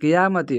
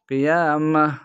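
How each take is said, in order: First: The word ends with a 'ti' sound. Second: The word ends with an 'h' sound. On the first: The reading continues without stopping. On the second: The reader stops on this word.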